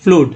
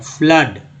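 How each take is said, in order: First: The vowel is a long oo sound. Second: The vowel is a short uh sound. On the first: The speaker calls it wrong. "न कि" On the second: The speaker calls it right. "Double ओ का उच्चारण जो है आ के रूप में हो रहा है"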